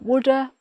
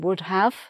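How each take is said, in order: First: The words blend into one reduced 'woulda'. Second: Both words are said fully and separately. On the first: It suits an informal conversation. "in an informal um, conversation" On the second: It suits a formal situation. "in a more formal situation"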